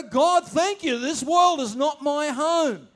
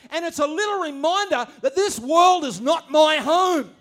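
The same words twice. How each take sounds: First: Slow, loud, declared thanks; grateful declaration. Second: Loud, high sermon line; preacher stating the refrain; preaching at full force. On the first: Pretend. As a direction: lift it up as a prayer of trust. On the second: Acted. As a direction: proclaim it to the congregation. Preaching climax.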